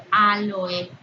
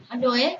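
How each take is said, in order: First: "aloe" stressed on its first A, hit louder; teacher showing the accented form, "aloe" with stress on the opening A. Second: "Aloe" stressed on the middle syllable, LO. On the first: Teacher giving students an example, "aloe" stressed on the first A. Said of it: "o con tilde en la A". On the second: Teacher showing the form without tilde, "Aloe" stressed on LO. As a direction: say "Aloe" with the weight on LO, not the first A. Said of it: "sin tilde". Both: Shown as a demonstration.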